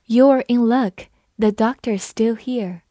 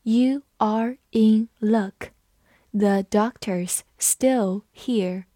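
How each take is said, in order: First: Said in the usual way. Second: Slow, every word spaced out; slow classroom read-aloud. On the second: Shown as a demonstration. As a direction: read it slowly for learners. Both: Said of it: "我们慢读一遍".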